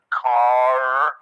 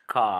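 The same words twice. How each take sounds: First: The r sound is strong and clearly heard. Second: The r sound is soft and barely heard. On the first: "the Americans pronounce the R's much stronger" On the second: "a soft pronunciation of the R in British English"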